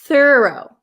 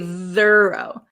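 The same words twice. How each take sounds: First: The first th sound is voiceless and breathy. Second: The first th sound is voiced and buzzing. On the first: The speaker calls it right. "th thorough does not" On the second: The speaker calls it wrong. "We don't say thorough"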